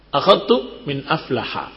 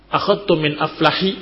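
First: The final word ends with an 'a' vowel. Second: The final word ends with an 'i' vowel. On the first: The speaker calls it right. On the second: The speaker calls it wrong.

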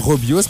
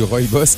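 First: The first syllable sounds like 'ro'. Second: The first syllable sounds like 'roy'. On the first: This is how a customer who misreads it says it. The speaker calls it wrong. "on n'a pas de Robios" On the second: This is the accepted way to say it. The speaker calls it right. "c'est comme ça que ça se dit un Roybos"

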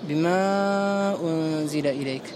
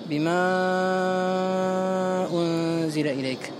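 First: The long vowel is held for four counts. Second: The long vowel is held for six counts. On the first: "أما عاصم من طريق الشاطبية فيقرأها أربع حركات" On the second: "وما حمزة فإنه يمدها، يقرأها ست حركات"

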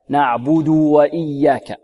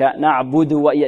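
First: The u vowel before the w is fully sounded. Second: The u vowel before the w is clipped short. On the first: The speaker calls it right. "لابد من إشباع الضمة" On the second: The speaker calls it wrong. "لا نقول"

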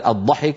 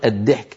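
First: The first consonant is a heavy emphatic d. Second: The first consonant is a plain light d. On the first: The speaker calls it right. "بدل الضحك" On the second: The speaker calls it wrong. "فيقلبون الضاد دالا"

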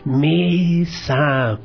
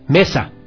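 First: The word is said even more softly. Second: The word is said at medium volume. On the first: "Ahora más bajito" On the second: "Ahora nos quedemos intermedios"

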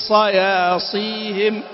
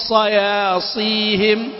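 Both takes have the same delivery.

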